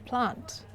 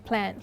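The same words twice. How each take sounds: First: It is said in an Australian accent. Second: It is said in an American accent. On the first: "in British and Australian accent, we say plant" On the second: "Americans would say plant"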